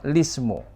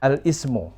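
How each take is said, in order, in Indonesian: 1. Langsung dimulai dengan bunyi l. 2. Dimulai dengan vokal a sebelum l. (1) "Jadi bacanya lismu" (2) "kalau disambung dengan alif lam"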